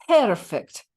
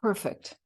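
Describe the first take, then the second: First: Higher, louder Irish exclamation; Irish-accented nurse's cry, pitched up. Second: Said in the usual way. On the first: Acted. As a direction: proclaim it in an Irish brogue. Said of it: "proclaimed the Irish nurse".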